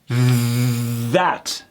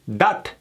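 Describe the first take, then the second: First: It begins with a TH sound. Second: It begins with a D sound. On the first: The speaker calls it right. "instead of" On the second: The speaker calls it wrong. "they do a D sound instead"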